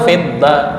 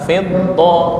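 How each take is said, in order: First: The final vowel sounds like a thin 'a'. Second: The final vowel sounds like a full 'o'. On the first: The speaker calls it wrong. "bukan fidda" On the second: The speaker calls it right. "fiddo, do"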